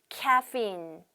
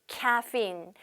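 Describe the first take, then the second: Both takes have the same delivery.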